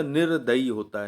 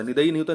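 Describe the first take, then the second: First: निर्दयी said with a clear r before the d, nir-da-yi; teacher giving the right form निर्दयी; correct form. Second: निदयी said without the r, as nid-a-yi; teacher showing the wrong spelling निदयी; wrong form. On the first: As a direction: stress the r in निर्दयी as the correct spelling. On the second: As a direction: show the mistake: निदयी with no r sound. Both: Shown as a demonstration.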